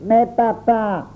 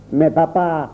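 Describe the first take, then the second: First: Aigu et lent, voix d'enfant qui geint; protestation d'enfant. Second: Dit d'un ton léger, sans inquiétude; insouciant, à peine concerné; air dégagé. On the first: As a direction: supplier son père en traînant. Auguste tente de protester. (enfant qui proteste en geignant) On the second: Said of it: "toujours du même air dégagé". (ton désinvolte et léger) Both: A narrator's reading.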